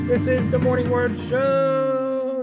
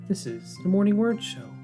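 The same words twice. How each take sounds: First: It is said with lots of enthusiasm. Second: It is said calmly, with little enthusiasm.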